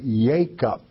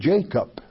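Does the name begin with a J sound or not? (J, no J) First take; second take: no J; J. First: The name is said without a J sound. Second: The name is said with an English J sound. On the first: This is the Hebrew form of the name. "if I were teaching a class that understood Hebrew only, I would say Jacob" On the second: This is the English form of the name. "I am a teacher in English, so I'm going to say Jacob"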